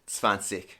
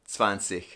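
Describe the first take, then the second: No difference in how they are said.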